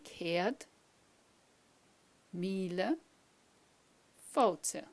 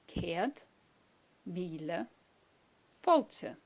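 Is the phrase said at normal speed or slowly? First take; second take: slowly; normal. First: The phrase is said slowly. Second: The phrase is said at normal speed.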